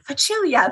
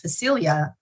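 First: It is said with an Italian pronunciation. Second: It is said with an English pronunciation.

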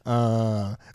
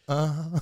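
First: It is a plain, neutral grunt. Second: It is a soft, effeminate moan.

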